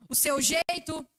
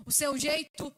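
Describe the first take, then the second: No difference in how they are said.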